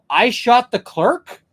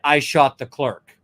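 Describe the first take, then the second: First: It is a horrified, questioning exclamation. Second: It is a plain, flat confession.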